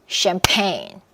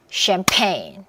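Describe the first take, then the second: The two takes are said the same way.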